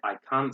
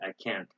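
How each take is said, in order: First: It is said in a British accent. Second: It is said in an American accent. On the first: "In British English, they say" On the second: "In American English, they say"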